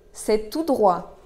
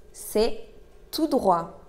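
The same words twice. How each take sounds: First: Said in the usual way. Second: Word by word. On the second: Shown as a demonstration. Teacher models the answer to directions, word by word. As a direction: pause between C'est and tout droit.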